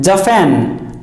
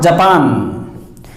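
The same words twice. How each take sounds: First: "Japan" with an f-like middle, stress on the last syllable; correct Japan. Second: "Japan" with a plain p and open pan, slowly; wrong Japan. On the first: Teacher giving the correct "Japan". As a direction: say "Japan" as ja-FAN. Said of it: "Japan, not Japan". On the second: Teacher slowly showing the wrong "Japan". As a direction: drag out the wrong "Japan" with a full p. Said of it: "not Japan". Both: Shown as a demonstration.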